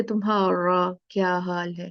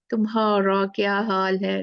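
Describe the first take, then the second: First: Said in the usual way. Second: British accent. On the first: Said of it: "क्या हम बोलते हैं?". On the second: Shown as a demonstration. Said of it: "ऐसे बोलते हैं ना".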